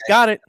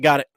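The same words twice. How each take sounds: First: It is said in an annoyed, sarcastic tone. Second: It is said in a plain, neutral tone. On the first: Stop talking and leave me alone. "you can hear it in my tone at that point" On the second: The message was simply understood. "there's nothing, that's nothing, nothing in that says shut up, leave me alone"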